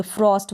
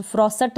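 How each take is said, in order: First: फ्रॉस्ट as one syllable, s joined to t; correct pronunciation. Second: फ्रॉसट split as "fraw-sat"; two-syllable mistake "frosat"; wrong pronunciation. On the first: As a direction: say फ्रॉस्ट with a tight "st" ending. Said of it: "एस टी को स्ट पढ़ेंगे". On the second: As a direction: put a vowel between s and t in फ्रॉसट. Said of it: "फ्रॉसट नहीं पढ़ सकते ना". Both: Shown as a demonstration.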